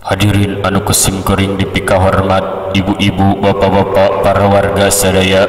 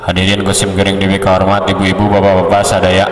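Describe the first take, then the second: First: Measured formal address, phrase by phrase; stately, steady salutation to the audience; clear, dignified delivery. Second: Run-together formal salutation; hasty, muddled audience greeting; too hurried. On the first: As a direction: keep it level and evenly spaced. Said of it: "ngadengeun nanti jelas". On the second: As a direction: rush the address without spacing the phrases. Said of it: "Gencang teuing mah". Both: Shown as a demonstration.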